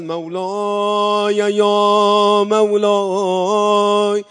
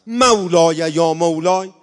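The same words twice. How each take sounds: First: Very slow, drawn-out sung "یا مولای"; chanted lament like a wartime reciter. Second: "مولای یا مولای" said straight and firm, not chanted; firm, direct plea. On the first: Retold or imitated. Preacher imitating a wartime eulogist, slow chanted lament. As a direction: stretch each syllable of "یا مولای" into a mournful chant. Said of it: "حاج آقا منصور نورایی می اومدن میخوندن". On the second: Shown as a demonstration. Preacher showing how to call God today, firm and direct. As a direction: speak "مولای یا مولای" bluntly to God, no melody. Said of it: "الان خیلی محکم باید بگی".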